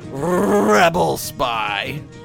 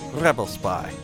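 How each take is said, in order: First: The phrase is said slowly and drawn out. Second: The phrase is said quickly and clipped. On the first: The speaker calls it wrong. "nobody says rebel spy" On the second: The speaker calls it right. "it's just rebel spy, like real quick"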